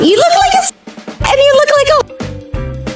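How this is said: It is said in a Mickey Mouse voice.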